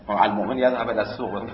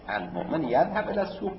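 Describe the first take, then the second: First: It is said with a flat statement intonation. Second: It is said with a questioning intonation. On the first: Every believer must go to the market. "لازم است برای هر مؤمنی که هر روز بره بازار" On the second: The speaker is questioning whether believers should go daily. "ولی امام داشت سوال میکرده"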